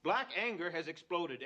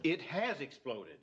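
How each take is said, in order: First: BLACK hit first and strongest; stress on BLACK. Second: HAS hit hard, the line slowed; stress on HAS. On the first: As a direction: lean on "Black" in "Black anger has exploded". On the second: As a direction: lean on "has" in "It has exploded". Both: Acted. Retort to "could explode.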